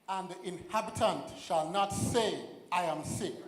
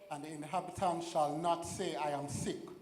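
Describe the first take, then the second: First: It is said in a bold, firm way. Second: It is said in a plain, ordinary way.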